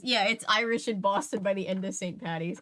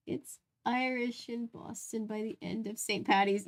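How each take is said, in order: First: Said in the usual way. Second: Boston accent. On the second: Shown as a demonstration. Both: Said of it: "comical Irish accent".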